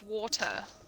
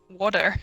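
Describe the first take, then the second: First: The middle consonant is a crisp t. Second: The middle consonant sounds like a soft d. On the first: "they sound almost British" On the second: "like a D. It's my accent"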